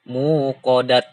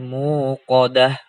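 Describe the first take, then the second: First: The word ends with a clipped t sound. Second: The word ends with a soft h sound. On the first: The speaker calls it wrong. "bukan muqadat" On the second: The speaker calls it right. "diganti tak marbutoh menjadi huruf H"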